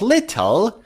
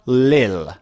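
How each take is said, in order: First: The middle sound is a clear t. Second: The middle sound is dropped entirely. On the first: "instead of little" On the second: "or lil"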